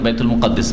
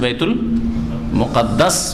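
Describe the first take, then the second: First: The last syllable has an 'i' vowel. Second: The last syllable has an 'a' vowel. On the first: The speaker calls it wrong. "আমাদের দেশের লোকেরা অনেকে বাইতুল মুকাদ্দিস বলে" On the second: The speaker calls it right. "বাইতুল মুকাদ্দাস বা মাকদিস"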